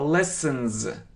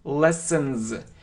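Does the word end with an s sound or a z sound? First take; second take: z; z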